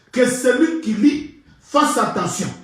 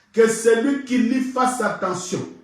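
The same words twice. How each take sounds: Both takes have the same delivery.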